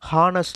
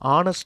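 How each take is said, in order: First: The word begins with an h sound. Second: The word begins with a vowel sound. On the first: The speaker calls it wrong. "ஹெச் silent, அதனால் ஹானஸ்ட் அப்படின்னு வாசிக்கக்கூடாது" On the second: The speaker calls it right. "ஆ sound தான் வரணும்"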